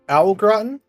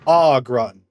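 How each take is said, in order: First: The first vowel sounds like 'ow'. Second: The first vowel sounds like 'aw'. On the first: "Ow or aw?" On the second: "Ow or aw?"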